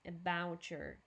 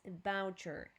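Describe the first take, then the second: First: The two words are linked together. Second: The two words are linked together.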